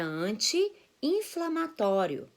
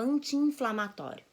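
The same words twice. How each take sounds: First: The two i sounds are said separately. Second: The two i sounds are merged into one. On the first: The speaker calls it right. "É" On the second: The speaker calls it wrong. "a gente juntava"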